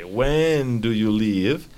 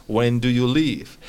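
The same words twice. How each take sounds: First: Slow, careful When do you leave; slow model question. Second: Said in the usual way. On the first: Shown as a demonstration. Teacher repeats student answer slowly to model. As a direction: stretch it out for the learner.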